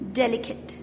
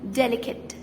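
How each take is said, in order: First: The last syllable is short and reduced, like 'kit'. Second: The same.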